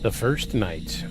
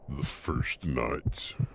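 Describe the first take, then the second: First: It is said in a normal voice. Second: It is said in a put-on deep voice.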